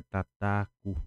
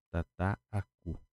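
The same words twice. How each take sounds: First: Said in the usual way. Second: Tataaku slowed right down, the middle aa stretched long; slow drawn-out word. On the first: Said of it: "vou escrever aqui pra vocês verem". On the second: Shown as a demonstration. Teacher spelling out the Guarani word for students, slow and drawn out. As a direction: draw out the aa in tataaku. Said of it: "Somente suprimindo".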